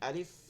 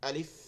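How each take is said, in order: No difference in how they are said.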